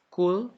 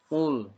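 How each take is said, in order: First: It starts with a plain front k sound. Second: It starts with a deep back-of-throat q sound. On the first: It means 'eat'. The speaker calls it wrong. "kalau mengucapkannya dengan huruf kaf" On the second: It means 'say'. The speaker calls it right. "Qaf, jangan kaf"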